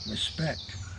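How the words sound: It is said very quietly and downcast.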